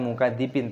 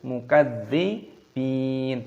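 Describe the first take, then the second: First: The d sound is short, said straight through. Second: The d sound is pressed and held doubled. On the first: The speaker calls it wrong. "jangan langsung dibaca" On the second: The speaker calls it right. "tapi tekan dulu"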